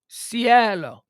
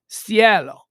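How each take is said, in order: First: The name is pronounced the Spanish way. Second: The name is pronounced the Spanish way.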